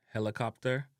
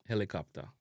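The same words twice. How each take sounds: First: HELICOPTER with a sounded final R; English-style "hella-cop-ter"; English pronunciation. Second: HELICOPTER as "heli-kap-ta"; Jamaican pronunciation. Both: Shown as a demonstration. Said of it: "replace the short O".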